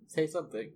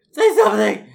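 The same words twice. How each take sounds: First: Said in the usual way. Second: High, loud demand; shouting. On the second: Pretend. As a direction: yell it into the dead line. Mock calling into silent line.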